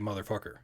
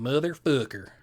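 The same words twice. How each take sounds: First: It is said in a plain everyday accent. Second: It is said in a southern accent, lip dropped. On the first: "I say motherfucker" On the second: "Nathan says motherfucker, and my lip drops"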